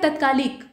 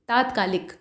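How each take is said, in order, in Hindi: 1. पहला स्वर छोटा है। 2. पहला स्वर दीर्घ है। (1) "लिखा है तत्कालिक" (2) "त पर आ की मात्रा रहेगी"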